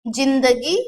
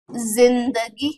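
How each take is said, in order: First: जिंदगी said carefully with a hard j, jindagi; plain j. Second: जिंदगी drawn out slowly with a buzzing z, zindagi; slow, low जिंदगी starting on z; buzzed z. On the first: Teacher showing the written word, जिंदगी with plain j. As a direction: begin जिंदगी with j as in jam. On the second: Teacher showing the dotted word, जिंदगी with buzzed z. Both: Shown as a demonstration. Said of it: "थोड़ी सी इसमें झनकार पैदा करनी है".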